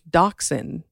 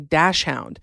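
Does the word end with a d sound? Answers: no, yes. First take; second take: no; yes. First: The word is said without a d at the end. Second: The word is said like dash hound, ending in d. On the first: The speaker calls it right. "I think it's dachshund without a D on the end" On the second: The speaker calls it wrong. "I would always say dash hound"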